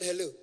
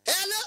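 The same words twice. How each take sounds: First: Said in the usual way. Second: Piercing high, loud phone hello; mock high-voiced caller. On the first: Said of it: "I said". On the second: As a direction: pitch it absurdly high and call out. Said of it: "their voice is very, very high".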